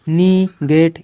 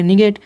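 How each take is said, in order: First: "निगेट" slowly as nee, then get; stretched, separated "निगेट"; split into syllables. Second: Said in the usual way. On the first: Shown as a demonstration. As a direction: pause between the two syllables of "निगेट". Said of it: "हम negative पढ़ेंगे". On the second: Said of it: "इतना हो गया".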